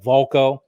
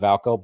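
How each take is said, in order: First: The first vowel sounds like 'o'. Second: The first vowel sounds like 'a'. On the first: The speaker calls it right. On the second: The speaker calls it wrong.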